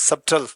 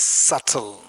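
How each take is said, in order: First: The b sound is pronounced in the middle. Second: The b sound is left out entirely. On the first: The speaker calls it wrong. "Don't pronounce it as subtle" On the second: The speaker calls it right. "Pronounce it as subtle. Be silent"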